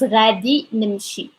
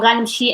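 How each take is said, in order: First: The future marker is said as a full word. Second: The future marker is shortened and joined on. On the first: "the full form is" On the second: "the short form"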